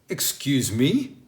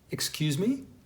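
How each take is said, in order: First: It sounds indignant and offended. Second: It sounds like a puzzled request to repeat. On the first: The listener took offense at what was said. "If you were going to use excuse me because you're offended by somebody" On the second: The listener did not understand and wants it repeated. "If you were going to use excuse me instead of saying, would you repeat yourself, you would say it like this"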